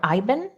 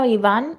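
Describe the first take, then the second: First: The name is said with American English pronunciation. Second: The name is said with Spanish pronunciation.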